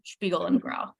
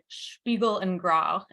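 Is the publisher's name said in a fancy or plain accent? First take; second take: plain; fancy. First: The name is said in a plain everyday accent. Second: The name is said in a put-on fancy accent. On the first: "It's probably Spiegel" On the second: "I just wanted to say it in a fancy accent"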